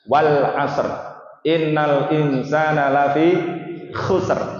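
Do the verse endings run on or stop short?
stop short. Each verse stops short on a final r. The speaker calls it right. "Tapi yang benar gimana? ... Harus berakhir er"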